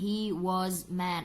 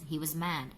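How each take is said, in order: First: 'Was' is said fully with a clear vowel. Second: 'Was' is said weakly with a reduced vowel. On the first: The speaker calls it wrong. "Jarang sekali" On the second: The speaker calls it right. "native speaker selalu mengucapkan dengan bentuk lemahnya"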